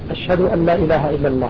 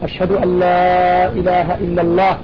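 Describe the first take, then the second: First: It is said in a low, quiet voice. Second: It is said in a raised, loud voice. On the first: "بصوت من خطب" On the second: "بصوت مرتفع"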